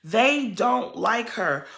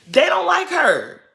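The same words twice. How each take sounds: First: Said in the usual way. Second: High and loud, slowed for emphasis; emphatic louder. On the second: Real, not acted. Telling Monique the girls don't like Winter, high and loud. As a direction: hammer the point home. Repeats point, louder take.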